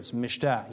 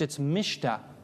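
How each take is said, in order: First: The stress is on the last syllable. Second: The stress is on the first syllable. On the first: The speaker calls it right. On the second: The speaker calls it wrong.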